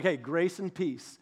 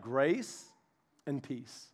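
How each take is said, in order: First: Slow, easy-going hello; casual greeting. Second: Much softer, lower and fading; gentle blessing. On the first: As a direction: greet them like an old friend. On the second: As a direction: lay the words down tenderly. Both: Shown as a demonstration. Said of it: "and he's like".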